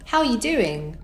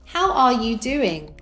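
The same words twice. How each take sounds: First: The words are linked and reduced together. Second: Each word is said separately and fully. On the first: "with connected speech" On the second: "without connected speech"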